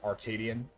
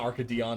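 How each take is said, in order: First: The last syllable sounds like 'an'. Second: The last syllable sounds like 'on'. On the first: The speaker calls it right. "It's Arcadian" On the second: The speaker calls it wrong. "It's not Arcadion"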